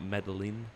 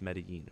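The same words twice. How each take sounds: First: The double L is said as an English L. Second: The double L is said as a Y sound. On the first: The speaker calls it wrong. "Not Medellin" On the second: The speaker calls it right. "There's two L's and it's Spanish, so it's Medellin"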